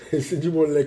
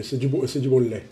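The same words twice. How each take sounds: First: Chuckling imitation of a friend; playful laughing nod to the catchphrase. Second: Lightly voiced nod to a fellow streamer; a hint of someone else's voice; Smiley's catchphrase. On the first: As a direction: repeat the catchphrase through a laugh, a touch higher. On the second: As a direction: toss off the catchphrase in a friend's manner. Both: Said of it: "comme dirait notre ami Smiley".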